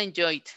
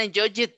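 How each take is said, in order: First: Said in the usual way. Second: "enjoyed" with an extra syllable, en-JOY-id; wrong ID ending. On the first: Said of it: "Suena enjoyed". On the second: Shown as a demonstration. Teacher ruling out an option for students, "enjoyed" as en-JOY-id. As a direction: add a separate "id" to the end of "enjoyed". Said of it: "tiene que sonar I D".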